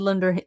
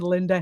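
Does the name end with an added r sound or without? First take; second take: added r; without r. First: The name ends with an added r sound. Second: The name ends in a plain vowel, no r. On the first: The speaker calls it wrong. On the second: The speaker calls it right.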